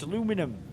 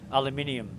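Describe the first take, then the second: First: It is said with four syllables, American style. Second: It is said with five syllables, British style. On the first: "No, it's aluminum" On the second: "because it's British"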